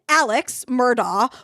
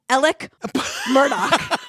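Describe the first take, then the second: First: The first name ends with a 'ks' sound. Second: The first name ends with a 'k' sound. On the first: It is read the way it is spelled. The speaker calls it wrong. "It's written Alex Murdaugh" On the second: It is said the way locals say it. The speaker calls it right. "but it's Alec Murdoch"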